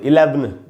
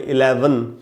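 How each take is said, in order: First: No vowel is heard between v and n. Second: A short schwa is heard between v and n. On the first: The speaker calls it wrong. "नहीं होता तो हम इसको ऐसे पढ़ते" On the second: The speaker calls it right. "हम बोले इलेवन, तो यहां पर आधा अ का साउंड है"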